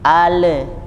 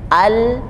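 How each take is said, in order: First: The l bounces into an extra vowel. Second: The l is held with no extra vowel. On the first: The speaker calls it wrong. "bisa jadi memantul" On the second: The speaker calls it right. "jangan memantul, tahan"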